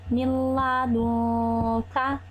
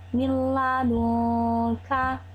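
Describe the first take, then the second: No difference in how they are said.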